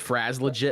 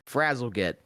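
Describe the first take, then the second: First: The name is said as Fraz-legit. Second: The name is said as Frazzle-git. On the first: The speaker calls it wrong. "when I first read it, I thought it was said" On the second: The speaker calls it right. "that sounds better"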